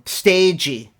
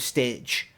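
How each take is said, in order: First: The word is said with two syllables. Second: The word is said with one syllable.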